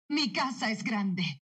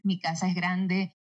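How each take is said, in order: First: Slow, drawn-out, understated excitement; excited. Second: Said in the usual way. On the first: Shown as a demonstration. Dubbing actress adding emotion to a line, gently excited. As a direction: savour each word with mild emotion. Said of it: "dilo emocionada". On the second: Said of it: "este mismo acento para decir".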